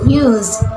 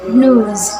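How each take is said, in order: First: It is said in an Australian accent. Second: It is said in an American accent. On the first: "In Australian accents" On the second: "In American accents"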